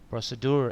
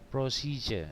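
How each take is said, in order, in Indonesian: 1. Diucapkan seperti 'pro-se-dur', berakhir dengan 'dur'. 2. Diucapkan seperti 'pro-si-je', berakhir dengan 'juh' yang lemah. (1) "kebanyakan kita akan ngomong prosedur gitu kan... Cuman penyebutannya salah" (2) "Pro si je je ya je kayak J E tapi E-nya lemah je"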